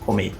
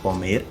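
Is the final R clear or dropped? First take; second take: dropped; clear. First: The final R is nearly cut off. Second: The final R is pronounced clearly.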